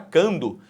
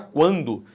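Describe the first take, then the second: First: The k is followed directly by the a. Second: The k is followed by a w sound. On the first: The speaker calls it wrong. "você não fala cando" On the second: The speaker calls it right. "você fala quando"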